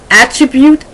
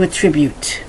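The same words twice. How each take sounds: First: It is said with the noun pronunciation. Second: It is said with the verb pronunciation. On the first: It names a thing. "I go from noun then to verb" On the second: It names an action. "to attribute"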